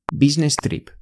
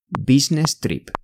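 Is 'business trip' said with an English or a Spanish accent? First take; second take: Spanish; Spanish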